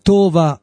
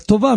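First: The stress is on the first syllable. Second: The stress is on the last syllable. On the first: The speaker calls it wrong. "לא אומרים טובה מלעל" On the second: The speaker calls it right. "אלא טובה מלרע"

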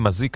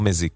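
First: The first vowel is an open 'a' sound. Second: The first vowel is an 'e' sound. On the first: The speaker calls it right. "גם אומרים מזיק, נכון?" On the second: The speaker calls it wrong. "ולא מזיק"

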